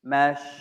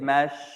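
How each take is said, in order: First: The syllable ends with an sh sound. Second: The same.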